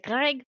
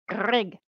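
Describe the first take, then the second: First: The R is said plainly, without a growl. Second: The R is growled at the back of the throat. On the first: The speaker calls it wrong. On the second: The speaker calls it right.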